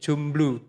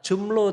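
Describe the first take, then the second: First: The word is said with a b sound. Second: The word is said without a b sound. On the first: This form adds more emphasis. "menjadi jomblo supaya lebih ada tekanannya" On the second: This is the original regional form. "kata jomblo tadi"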